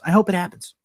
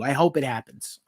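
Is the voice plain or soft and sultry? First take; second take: soft and sultry; plain. First: It is said in a soft, sultry voice. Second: It is said in a plain, ordinary voice.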